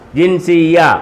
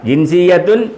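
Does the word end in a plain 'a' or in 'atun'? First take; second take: a; atun. First: The word ends on a plain 'a' vowel. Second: The word ends with an added 'tun' syllable. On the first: The speaker calls it right. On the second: The speaker calls it wrong.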